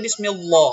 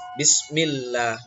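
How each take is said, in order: First: The L sound is heavy and thick. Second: The L sound is light and thin. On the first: The speaker calls it wrong. "Tidak boleh" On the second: The speaker calls it right. "maka Allahnya tipis"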